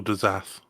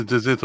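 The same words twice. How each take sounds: First: "Dyzath" with a buzzed z, open a; Dyzath pronunciation. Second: "Dysyth" with a hissed s, short i; Dysyth pronunciation. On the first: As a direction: say "Dyzath", ending like "zath". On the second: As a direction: say "Dysyth", second vowel as in "sit". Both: Shown as a demonstration. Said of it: "It's either".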